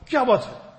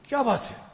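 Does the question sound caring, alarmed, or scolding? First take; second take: scolding; alarmed. First: It sounds stern and scolding. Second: It sounds anxious and alarmed. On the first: Reprimanding someone. "I'm reprimanding someone" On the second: Anxiously asking what happened after an accident. "there was some accident or something, and I'm worried, but what happened?"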